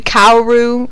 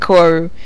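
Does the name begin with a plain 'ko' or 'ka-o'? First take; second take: ka-o; ko. First: The name begins with a 'ka-o' sound. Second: The name begins with a plain 'ko' sound. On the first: This is how some other people say it. The speaker calls it wrong. "some people say Kaoru" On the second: This is the speaker's usual way of saying it. The speaker calls it right. "but I say Koru"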